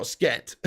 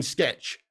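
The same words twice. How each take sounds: First: "sket" ending on a t, no ch; mispronounced word. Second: "sketch" with the final ch sounded; corrected pronunciation. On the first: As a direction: cut "sketch" down to "sket". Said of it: "not sket". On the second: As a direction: finish "sketch" on a clear ch. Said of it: "I mean, sketch". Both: Shown as a demonstration.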